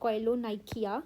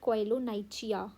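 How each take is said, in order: First: It is said with a 'k' sound near the end. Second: It is said with a 'ch' sound near the end. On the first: This is how the speaker says it. "I call it" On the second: This is how some other people say it. "Some people even call it"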